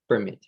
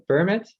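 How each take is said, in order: First: PerMIT, strong ending; verb-style "permit", weight on MIT; "permit" with light first syllable; stress on second syllable. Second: PERmit, strong start; noun-style "permit", weight on PER; "permit" with light second syllable; stress on first syllable. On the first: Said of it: "the stress is on the second syllable". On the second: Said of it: "the stress is on the first syllable". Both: Shown as a demonstration.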